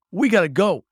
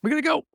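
First: Loud, urgent call to flee; urgent shout. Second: Much higher, panicked repeat; frantic high cry. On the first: Hero yelling at the Raven to run, urgent shout. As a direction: shout it to get everyone moving. Urgent escape, grabbing cousin. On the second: Hero repeating the order to run, frantic high cry. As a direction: squeal it in a panic. Repeated urgent call to flee. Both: Acted.

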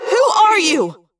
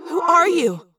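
First: High, loud echoing yell; yelled in thought-speak. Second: Echoing, higher questioning voice; asked in thought-speak. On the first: Confused Rachel demanding the girl's identity, echoing yell. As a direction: demand it at a shout. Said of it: "I yelled in thought speak". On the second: Confused Rachel questioning the girl, echoing asked question. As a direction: ask it with echo, short of a yell. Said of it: "I asked". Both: A narrator's reading.

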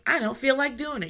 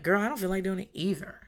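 First: Lightly voiced balking kid, pitched higher; a hint of a child protesting a chore. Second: Mild, offhand comeback in own register; commiserating retort. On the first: Child refusing a parent's request, mildly whiny protest. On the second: Retold or imitated. Parent answering a balking child, casual commiserating retort. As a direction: lightly imitate a parent agreeing with the complaint.

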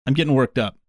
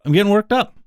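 First: Said in the usual way. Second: Mock fired-up repeat of the line; mock worked up. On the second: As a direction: play at getting riled up.

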